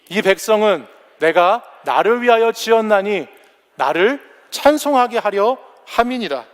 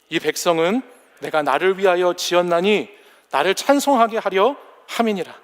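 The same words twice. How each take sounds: First: It is read in a loud voice. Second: It is read at a normal volume.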